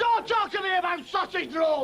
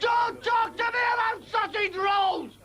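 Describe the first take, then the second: First: Angry shout at the interruption; indignant bellow; shouted rant. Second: The same yell pushed higher; repeated outraged bellow. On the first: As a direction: cut him off with a yell. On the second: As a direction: hammer it home again. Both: Acted. Ranting comic character.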